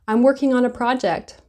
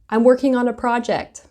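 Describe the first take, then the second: First: I am is blended into one syllable. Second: The same.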